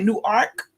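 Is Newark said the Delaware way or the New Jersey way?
Delaware. Newark is said with a Delaware pronunciation. "I don't know if y'all say Newark in Delaware"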